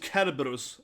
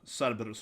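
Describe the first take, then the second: First: The name begins with a hard K sound. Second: The name begins with a soft S sound. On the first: The speaker calls it right. "it's supposed to be a K" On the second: The speaker calls it wrong. "and not uh"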